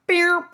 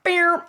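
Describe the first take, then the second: First: Said in the usual way. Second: Beer sprung much higher and louder like a snapping rubber band; cartoon boing sound. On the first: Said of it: "It just went, beer". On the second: Shown as a demonstration. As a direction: pop out beer like a cartoon spring. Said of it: "her body just went".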